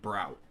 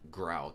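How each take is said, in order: First: The name begins with a B sound. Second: The name begins with a G sound. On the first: The speaker calls it right. "it's Brout" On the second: The speaker calls it wrong. "Not Grout"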